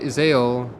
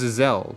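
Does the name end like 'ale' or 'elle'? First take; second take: ale; elle. First: The name ends with an 'ale' sound. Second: The name ends with an 'elle' sound. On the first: The speaker calls it wrong. "Which I think I'm saying wrong" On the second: The speaker calls it right. "It was Izelle"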